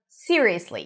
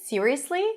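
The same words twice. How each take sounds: First: The pitch falls at the end. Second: The pitch rises at the end. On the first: The speaker doubts the other person is serious. "you're kidding me, right?" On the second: The speaker is genuinely surprised and asking. "Rising intonation"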